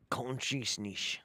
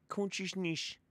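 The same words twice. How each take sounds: First: Consciousness drawn out slowly as /kɑ̃nʃisniʃ/ with sh sounds; mock the channeler's Consciousness slowly; imitating his accent. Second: Consciousness pitched higher and softer, mushy /kɑ̃nʃiʃniʃ/; imitating his accent. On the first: Streamer parroting the channeler's word Consciousness slowly. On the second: Streamer re-trying the channeler's Consciousness higher. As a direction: try Consciousness again up high and soft. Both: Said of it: "That sounds, uh, like a northy".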